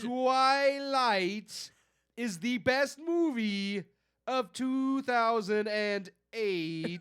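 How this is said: It is read in a mocking put-on voice.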